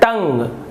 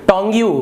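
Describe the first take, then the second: First: It is said as one syllable, tung. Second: It is said as two syllables, tong-yoo. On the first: The speaker calls it right. "इसका उच्चारण होता है टंग" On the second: The speaker calls it wrong. "गलत गलत उच्चारण करते हैं"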